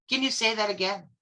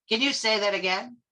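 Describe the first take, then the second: Both takes have the same delivery.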